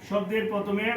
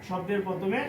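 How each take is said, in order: No difference in how they are said.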